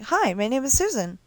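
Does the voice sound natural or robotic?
natural. The voice sounds smooth and natural. This is how newer computer voices sound. The speaker calls it right. "now it sounds like"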